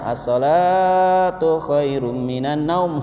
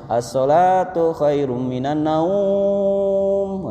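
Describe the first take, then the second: First: The vowel in the first word is drawn out. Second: The vowel in the final word is drawn out. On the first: It stresses that prayer is better. The speaker calls it right. "naumnya pendek. As-sholat la-nya yang panjang" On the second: It sounds like a call to sleep. The speaker calls it wrong. "naumnya yang panjang. Sing kedengeran naumnya"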